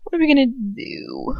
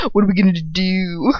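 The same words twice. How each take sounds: First: Higher frantic question; panicked plea. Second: Said in the usual way. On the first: Acted. Narrator panicking to Lucius, higher. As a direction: plead in rising panic. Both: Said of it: "You can tell that I'm tired of saying".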